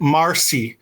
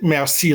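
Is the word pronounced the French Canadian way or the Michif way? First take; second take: Michif; French Canadian. First: It is pronounced the Michif way, like 'marcy'. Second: It is pronounced the French Canadian way. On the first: "We pronounce it marcy" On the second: "we don't pronounce it merci like the French Canadian"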